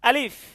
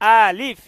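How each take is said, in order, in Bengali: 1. প্রথম স্বরটি ছোট রাখা হয়েছে। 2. প্রথম স্বরটি টেনে লম্বা করা হয়েছে। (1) "আমারটা দেখেন" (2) "আপনারটা এমন হচ্ছে আলিফ, আলিফ, এমন হবে না ভাই"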